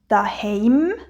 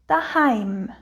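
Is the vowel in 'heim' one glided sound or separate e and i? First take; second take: separate e-i; gliding ei. First: The vowel is said as separate e and i. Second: The vowel is said as one gliding ei. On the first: "rede ich auch als «e» und «i»" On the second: "nicht wie im Hochdeutschen als «ei»"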